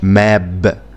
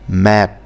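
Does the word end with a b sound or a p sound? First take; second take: b sound; p sound. First: It ends with a voiced b sound. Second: It ends with a voiceless p sound. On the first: The speaker calls it wrong. "غلط" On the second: The speaker calls it right. "ماب مش"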